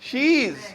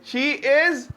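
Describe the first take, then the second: First: It is joined into one short syllable. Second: It is said as two separate full words.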